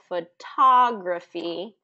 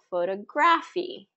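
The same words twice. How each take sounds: First: The stress is on the second syllable. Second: The stress is on the third syllable. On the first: The speaker calls it right. "stressing the second syllable" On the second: The speaker calls it wrong. "you might be stressing the third syllable"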